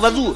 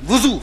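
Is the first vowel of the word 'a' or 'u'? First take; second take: a; u. First: The first vowel sounds like 'a'. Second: The first vowel sounds like 'u'. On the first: The speaker calls it wrong. "जैसे अक्सर लोग कहते हैं वजू वजू, ना" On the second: The speaker calls it right. "वुजू सही लफ्ज है वुजू"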